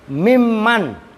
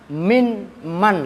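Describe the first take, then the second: First: The n merges into the m as one. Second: The n is heard before the m.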